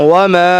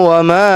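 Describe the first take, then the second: Both takes have the same delivery.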